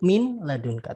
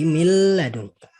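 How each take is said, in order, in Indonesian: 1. Bunyi n diucapkan jelas sebelum l. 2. Bunyi n menyatu menjadi bunyi l yang digandakan. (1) "Kalau nun matinya dibaca jadi min ladunka" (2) "Dia langsung dimasukkan ke huruf setelahnya. Jadi mil ladunka"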